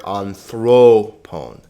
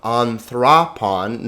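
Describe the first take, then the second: First: Anthropon slowly with long "oh" in thro and pon; long o sounds. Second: Anthropon with "ah" for each o, as an-thrah-pahn; short o sounds. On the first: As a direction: draw out a loud THROH in anthropon. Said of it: "omegas are always long". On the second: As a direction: say anthropon with open "ah" vowels. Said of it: "Notice these omegas are always long". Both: Shown as a demonstration.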